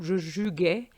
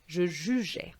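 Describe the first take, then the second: First: The g in jugeais sounds hard, like in go. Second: The g in jugeais sounds soft, like zh. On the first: The speaker calls it wrong. "if you remove it, it would give you je jugeais, which is not the right pronunciation" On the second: The speaker calls it right. "so that you have the pronunciation je"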